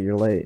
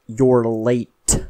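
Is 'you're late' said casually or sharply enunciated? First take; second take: casual; sharp. First: The words are said in a relaxed, casual way. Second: The words are enunciated sharply and crisply. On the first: A friendly remark. The speaker calls it right. "instead of saying, like, oh, hey, you're late" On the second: A rude, condescending rebuke. The speaker calls it wrong. "when you enunciate words, like, specifically, like, really sharply, it makes you sound like an asshole"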